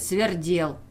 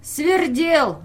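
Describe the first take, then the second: First: Mocking close. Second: High, loud taunting Свердел; mocking. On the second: Peasant teasing the official with his nickname, mocking and loud. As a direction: fling the name Свердел up high and loud in mockery. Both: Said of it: "как бы издевался".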